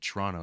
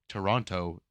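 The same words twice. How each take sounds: First: The syllables are clipped and run together. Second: Every syllable is pronounced fully and clearly. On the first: This is what locals call it. "is what you call it" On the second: This is the official name. "is the name"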